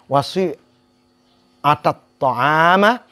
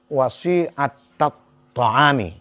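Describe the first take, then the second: First: The last word ends with an 'a' vowel. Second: The last word ends with an 'i' vowel. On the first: The food is the object of the active participle. "Kalau dibaca dengan wasi atat ta'ama, berarti kalimat sani'ah ini kalau kita jadikan sebagai isim fa'il, berarti dia beramal" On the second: The food is in a genitive construction. "karena diidhafah kepada al-ijtima'ah"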